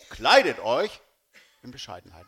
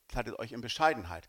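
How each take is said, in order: First: The word Kleidet carries the main stress. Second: The word Bescheidenheit carries the main stress. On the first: It is about wearing modest clothes. The speaker calls it wrong. "wie man die Betonung legt" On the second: It is about being modest. The speaker calls it right. "Kann man auch anders sagen, seid bescheiden"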